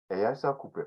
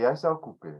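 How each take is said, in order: First: "E, iai sa ocupe" softer and settled, dropping like a statement; falling, down version. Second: "iai sa ocupe" with the voice pitched up, lifted like a question; rising, up version. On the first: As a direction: bring "sa ocupe" down and let it fall. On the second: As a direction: let "sa ocupe" ride up in pitch. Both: Shown as a demonstration. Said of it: "with the inflection of your voice, go up and down".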